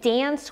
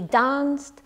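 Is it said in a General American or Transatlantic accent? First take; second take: General American; Transatlantic. First: It has a flat American a vowel. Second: It has a long broad ah vowel.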